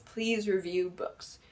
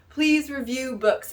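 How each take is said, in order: First: Quiet, slow "please review books"; soft slow plea. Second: Slow plea, "please" leaning high; stressed please. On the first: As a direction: say "please" softly and slowly. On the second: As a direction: draw out "please" as a request. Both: Shown as a demonstration.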